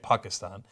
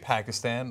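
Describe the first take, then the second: First: The name is said closer to native pronunciation. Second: The name is said the common American way. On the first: The speaker calls it right. "but his is more correct" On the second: The speaker calls it wrong. "we normally say Pakistan, right, in America"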